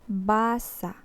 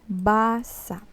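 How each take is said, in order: The two takes are said the same way.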